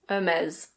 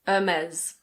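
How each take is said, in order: No difference in how they are said.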